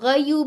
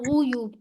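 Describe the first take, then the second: First: The first vowel sounds like 'a'. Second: The first vowel sounds like 'u'. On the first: The speaker calls it wrong. "गयूब नहीं करना" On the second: The speaker calls it right. "गुयूब करना है"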